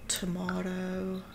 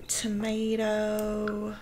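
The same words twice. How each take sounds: First: Tomato as tuh-MAW-roh, slow and softer. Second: Tomato as tuh-MAY-doh, slow. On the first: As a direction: say tomato the British way. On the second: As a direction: say tomato like an American. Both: Shown as a demonstration.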